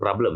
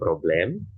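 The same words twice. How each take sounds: First: The word is pronounced the English way. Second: The word is pronounced the German way. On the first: The speaker calls it wrong. "jangan problem ya. Kalau problem itu nanti bahasa Inggris" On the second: The speaker calls it right. "Kein Problem"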